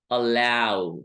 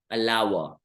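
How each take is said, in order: First: अलाउ said as "अला-ऊ", ending in a clean ऊ sound; correct pronunciation. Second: अलाउ said as "अलावा", with a v sound at the end; wrong pronunciation. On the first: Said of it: "हम बोलते हैं". (अलाउ को सही तरीके से "अला-ऊ" बोलना) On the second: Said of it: "ऐसा नहीं बोलते हैं". (अलाउ को गलत तरीके से "अलावा" बोलना) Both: Shown as a demonstration.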